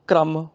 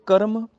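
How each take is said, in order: First: ਕ੍ਰਮ said "kramm", k and r joined; half r. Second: ਕਰਮ said "ka-ram", vowel before the r; full r. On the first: Teacher gives the contrast, ਕ੍ਰਮ as "kramm". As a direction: run k straight into r in ਕ੍ਰਮ. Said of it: "ਰਾਰਾ ਅੱਧਾ ਹੋ ਗਿਆ". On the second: Teacher gives an example, ਕਰਮ as "karam". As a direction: give ਕਰਮ a whole r. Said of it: "ਰਾਰਾ ਪੂਰਾ ਹੋ ਗਿਆ". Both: Shown as a demonstration.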